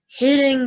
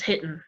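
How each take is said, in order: First: The ending is said with a full 'ing' sound. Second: The ending is said as 'in', g dropped.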